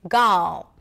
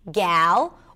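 First: The vowel sounds like the vowel in father. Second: The vowel sounds like the vowel in cat. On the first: "A as in father" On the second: "A as in cat"

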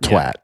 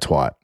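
First: The word is said in a British way. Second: The word is said in an American way.

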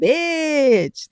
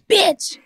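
First: It is said in an affectionate, friendly way. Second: It is said in a hostile, unfriendly way.

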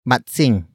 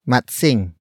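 The two takes are said the same way.

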